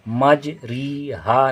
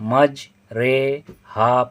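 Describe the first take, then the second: First: The middle vowel is a full, pure 'ee'. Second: The middle vowel leans toward 'ay', between a and i. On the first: The speaker calls it wrong. "इसको मज री हा नहीं पढ़ेंगे" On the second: The speaker calls it right. "बल्कि मज रे हा पढ़ेंगे"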